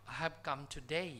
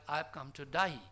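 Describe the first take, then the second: First: Said in the usual way. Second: Imitated Australian "today", sounding like "to die"; "die" where "day" is expected. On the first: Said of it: "trying to mean". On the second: Shown as a demonstration. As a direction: say "die" with an eye vowel, meaning "today". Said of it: "it sounded like".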